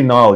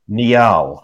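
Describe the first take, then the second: First: One syllable that sounds like the river Nile. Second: The name is spread over two syllables. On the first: The speaker calls it wrong. "you're confusing me with the well-known Egyptian river" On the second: The speaker calls it right. "which sounds great. It's really a two-syllable name"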